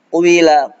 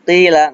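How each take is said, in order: First: The q sound is heavy and full. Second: The q sound is light and thin. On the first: The speaker calls it wrong. "nggak boleh baca qwila" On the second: The speaker calls it right. "Seperti qila"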